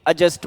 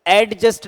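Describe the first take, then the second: First: The d sound is silent. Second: The d sound is clearly pronounced. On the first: The speaker calls it right. "एडजस्ट बोलेंगे" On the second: The speaker calls it wrong. "एडजस्ट नहीं बोलेंगे"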